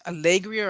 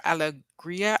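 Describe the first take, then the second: First: Alegria as uh-leg-REE-uh; first pronunciation. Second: Alegria as al-uh-GREE-uh; alternative pronunciation. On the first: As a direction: say Alegria with a reduced first "uh" and a clearer "leh". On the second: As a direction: say Alegria with an open "al" and a reduced middle "uh". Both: Shown as a demonstration. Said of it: "not sure if it's pronounced".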